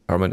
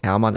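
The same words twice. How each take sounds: First: The name is said with an English pronunciation. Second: The name is said with a German pronunciation. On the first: "Hermann is English" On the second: "but Hermann is German"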